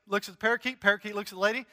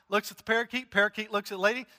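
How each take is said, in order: Both takes have the same delivery.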